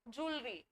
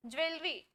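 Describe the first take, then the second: First: ज्वेलरी said softly as "julri", two syllables; correct pronunciation. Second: Said in the usual way. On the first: Shown as a demonstration. Teacher correcting class on ज्वेलरी, said as "julri". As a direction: say ज्वेलरी as "jool-ree", no "wel". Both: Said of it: "ज्वेलरी सही pronunciation है".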